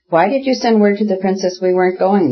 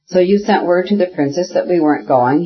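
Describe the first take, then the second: First: Exasperated question, high and sustained, little true whisper; angrier hoarse whisper. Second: Mildly angry, voiced rather than whispered; understated reproach, pitched up. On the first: Exasperated painter demands answer from his wife, higher-pitched anger. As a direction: push the reproach higher, straining to be heard. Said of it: "whispered hoarsely again, still more angrily". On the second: Painter reproaches his wife about the princess, restrained anger. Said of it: "whispered to her angrily, losing his voice". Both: A narrator's reading.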